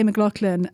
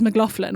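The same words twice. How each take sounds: First: The name is pronounced the Scotch-Irish way. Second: The name is pronounced the typical American way. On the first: The speaker calls it right. "But I say McLaughlin" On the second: The speaker calls it wrong. "which is the typical American way to say it"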